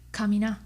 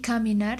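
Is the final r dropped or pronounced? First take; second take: dropped; pronounced. First: The final r is dropped. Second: The final r is pronounced.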